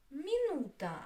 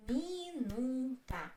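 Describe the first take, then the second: First: Said in the usual way. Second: "Minuta" slowly, in three separate syllables. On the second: Shown as a demonstration. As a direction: stretch out mi, nu, ta in "Minuta".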